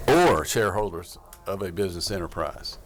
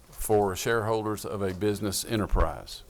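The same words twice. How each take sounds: First: "Or" said with no f sound, as a plain vowel start; corrected to or. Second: "for" with a clear f at the start, said as "for shareholders"; misread as for. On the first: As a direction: fix the first word to "Or", clearly without f. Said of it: "O R". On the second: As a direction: read it as "for", not "or". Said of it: "But you said for". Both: Real, not acted.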